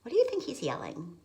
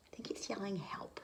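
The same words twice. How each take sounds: First: Said in the usual way. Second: Whisper. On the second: Real, not acted. Whispered guess to child.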